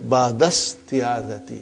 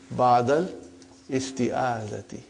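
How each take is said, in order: First: The words run together with no separate vowel. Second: The vowel starting "isti" is pronounced separately. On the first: This is how a fluent native speaker reads it. The speaker calls it right. "so it will say ba'dasti'adati" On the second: This is a simplification for learners. The speaker calls it wrong. "but for simplicity, I still feel that while we are learning"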